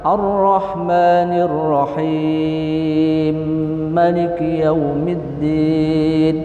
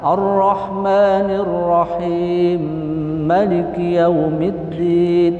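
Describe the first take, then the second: First: The vowel in Rahim is held for four beats. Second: The vowel in Rahim is held for two beats. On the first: "Bisa juga empat harokat" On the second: "huruf mad Ar-Rahim bisa dibaca dua harokat"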